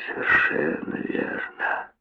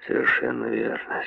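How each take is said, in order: First: Slow, breathy whisper of "совершенно верно"; slow sly whispered repeat. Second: Sly whisper. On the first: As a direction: draw the repeat out in a hush. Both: A narrator's reading. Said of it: "Он хитро качнул головой".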